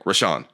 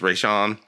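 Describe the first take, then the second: First: The name is said quickly, run together. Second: The name is said slowly, syllables drawn apart. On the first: This is how the name should sound. The speaker calls it right. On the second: This is how someone else kept mispronouncing it. The speaker calls it wrong.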